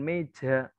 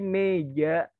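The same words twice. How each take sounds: First: The j is heavy, with a puff of air. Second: The j is light, with no puff of air. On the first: The speaker calls it wrong. "bukan meja" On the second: The speaker calls it right. "tapi meja"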